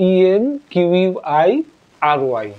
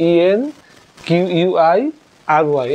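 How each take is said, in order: No difference in how they are said.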